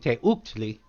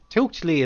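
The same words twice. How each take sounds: First: The first part is split into two syllables. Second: The first part is said as one syllable. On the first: The speaker calls it wrong. "I was mispronouncing it because I would at first I was saying Teuchtli" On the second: The speaker calls it right. "Teuk is one syllable as opposed to two"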